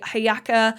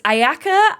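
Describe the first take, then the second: First: The word begins with an h sound. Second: The word begins directly with a vowel. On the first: "It might also be Hayaka" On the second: "I think that's how I pronounce it"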